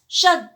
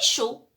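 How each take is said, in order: First: The final d of the word is sounded. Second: The final d of the word is silent. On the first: The speaker calls it wrong. "J'ai dit il fait, tresse, chaude" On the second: The speaker calls it right. "on ne les lit pas"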